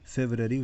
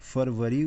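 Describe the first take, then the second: First: It is said the English way, beginning 'febr'. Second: It is said the Hindi way, beginning 'farv'. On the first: "अंग्रेजी में उच्चारण करना हो तो इसे फेब्रवरी उच्चारण करते हैं" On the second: "इसे हिंदी में फरवरी उच्चारण करते हैं"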